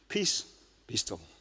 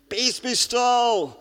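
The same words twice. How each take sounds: First: It is said quietly and calmly. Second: It is shouted loudly.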